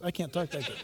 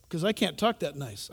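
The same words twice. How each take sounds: First: Laughing aside. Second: Said in the usual way. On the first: Real, not acted.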